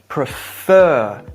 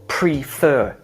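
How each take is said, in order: First: One syllable is stressed more strongly. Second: Both syllables get the same stress. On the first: The speaker calls it right. "each having their own syllable stress or emphasis within the word" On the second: The speaker calls it wrong. "or prefer equally"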